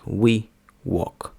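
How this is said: The w is pronounced the English way. The speaker calls it right. "Але насправді їх потрібно вимовляти як"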